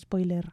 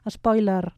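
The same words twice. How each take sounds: First: English-style pronunciation, not adapted to Catalan. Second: Catalan pronunciation, open O and neutral final E. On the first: The speaker calls it wrong. "no pas spoiler" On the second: The speaker calls it right. "ja ho pronunciem a la catalana, eh? Amb una E neutra"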